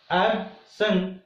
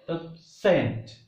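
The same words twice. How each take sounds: First: "absent" as AB-sent, strong AB, weak sent; stress on first syllable. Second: "absent" as ab-SENT, slowly, strong second syllable; small ab, then a stretched SENT in "absent"; stress on second syllable. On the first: Teacher repeats the noun absent, stressed on AB. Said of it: "Here ab becomes strong". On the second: Teacher contrasts with the verb absent, stressed on SENT. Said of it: "first syllable becomes weak and second becomes". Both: Shown as a demonstration.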